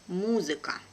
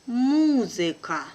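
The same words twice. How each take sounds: First: Brisk, natural native speed; quick native pace. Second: Slow and careful, drawn out for learners; teacher's careful slow reading. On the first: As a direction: say it fast like a native. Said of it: "second time will be quickly, like a native". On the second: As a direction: spell it out slowly for the class. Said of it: "one first time will be slow". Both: Shown as a demonstration.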